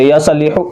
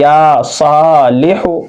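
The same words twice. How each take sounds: First: या सालिहु with या and सा cut short; wrongly hurried. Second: या सालिहु slow, या and सा held long; careful model recitation, long aa's then short लिहु; correctly stretched. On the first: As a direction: mistaken quick reading of या सालिहु. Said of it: "या और साद को जल्दी". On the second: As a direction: draw out या सा, finish लिहु quickly. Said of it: "ऐसा नहीं, बल्कि". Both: Shown as a demonstration.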